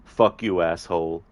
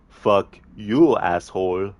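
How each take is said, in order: First: Mild mock snarl at normal volume; lightly voiced movie henchman spitting an insult; villain's insult. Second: Louder Arnie-style retort with you hit hard; a hint of Arnie, loud and flat; Arnie's comeback. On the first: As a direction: toss the insult back as the thug. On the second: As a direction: throw the insult back as Arnie, punching the word you. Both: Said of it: "the Arnie movie scene impression".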